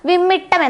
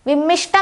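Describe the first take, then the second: First: The middle cluster is a doubled 't'. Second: The middle cluster has a 'sh' sound. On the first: The speaker calls it right. "വിമ്മിട്ടം എന്നാണ് പറയേണ്ടത്" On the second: The speaker calls it wrong. "വിമ്മിഷ്ടം എന്നല്ല നമ്മൾ പറയേണ്ടത്"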